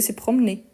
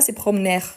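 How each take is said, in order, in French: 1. Le R final est muet, il se termine comme é. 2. Le R final est prononcé à la fin. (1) "c'était comme s'il avait un accent aigu ici" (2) "c'est pas se promener"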